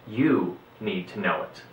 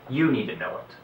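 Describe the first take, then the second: First: It is said slowly and deliberately. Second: It is said at a normal pace.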